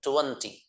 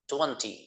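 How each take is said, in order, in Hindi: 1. यह ब्रिटिश लहजे में बोला गया है। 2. यह ब्रिटिश लहजे में बोला गया है।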